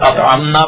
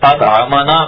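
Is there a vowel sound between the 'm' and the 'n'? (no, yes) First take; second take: no; yes. First: No vowel is heard between m and n. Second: A short 'a' vowel is heard between m and n. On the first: We fed Allah. The speaker calls it wrong. "زبر نہیں پڑا، فتح نہیں پڑا" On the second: Allah fed us. The speaker calls it right. "پڑھیں تو اس کے معنی ہے کہ جس نے ہمیں کھلایا"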